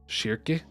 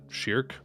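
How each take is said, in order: First: The name is said in a Japanese-style pronunciation. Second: The name is said in an English-style pronunciation. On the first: "figure out how they would say them in Japanese" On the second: "instead of Shirk"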